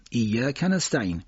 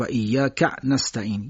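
First: ایاک held on ya, short ka linked to نستعین; short joined vowel. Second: ایاک ending in a caught ka' before نستعین; intrusive glottal stop. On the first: Teacher showing native speakers' way, joined reading. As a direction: say iyya, then kanasta'in for ایاک نستعین. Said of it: "صدای کوتاه رو نمیکشن". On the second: Teacher imitating a faulty reciter, inserted hamza. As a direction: cut ایاک with a glottal catch after ka, slowly. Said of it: "یه حرف همزه یا عین هم میاد". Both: Shown as a demonstration.

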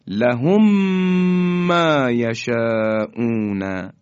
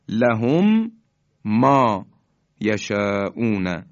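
First: لهم ما یشاءون joined by a long hummed m; merged m. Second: لهم ما یشاءون with a stop after each of لهم and ما; unmerged m. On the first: Teacher demonstrating the merge, long nasal held m. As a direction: slowly recite لهم ما یشاءون without a break, holding the m. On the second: Teacher setting out the words before merging, separated m. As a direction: say لهم, pause, then ما, pause, یشاءون. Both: Shown as a demonstration.

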